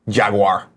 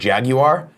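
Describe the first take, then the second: First: It is said with an American pronunciation. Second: It is said with a British pronunciation. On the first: "Here in America, we don't we don't want to work that hard. We say Jaguar" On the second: "If you're in U K and you pronounce it Jaguar"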